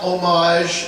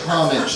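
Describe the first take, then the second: First: It is said with a French-sounding pronunciation. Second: It is said with an English-sounding pronunciation. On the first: The speaker calls it wrong. "it's not homage, and please don't ever say it that way because you're a snooty French buck if you do" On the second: The speaker calls it right. "So please say homage. That's the way it's pronounced"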